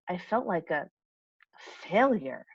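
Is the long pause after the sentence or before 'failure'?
before failure. There is a pause right before the last word. The word failure is emphasized. "that pause right between the right before the word failure really emphasizes it"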